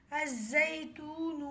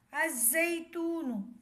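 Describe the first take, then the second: First: الزیتون said slowly as "az-zaitun", lam dropped; silent lam. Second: الزیتون said slowly as "az-zaitun", zaa doubled; silent lam. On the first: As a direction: read الزیتون slowly with doubled zaa. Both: Shown as a demonstration. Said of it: "لام نہیں پڑھا جائے گا".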